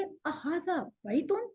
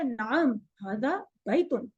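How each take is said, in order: First: Slow "अ हाजा बैतुन" rising at the end; questioning tune. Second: "नाम", then slow "हाजा बैतुन" stepping down; answering tune. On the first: Teacher models a yes-no question, questioning tune. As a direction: ask "अ हाजा बैतुन" slowly, lifting the last word. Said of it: "फिर आप कहेंगे". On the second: Teacher models the yes answer, answering tune. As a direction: confirm with "नाम, हाजा बैतुन", drawn out and settled. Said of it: "तो जवाब आएगा". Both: Shown as a demonstration.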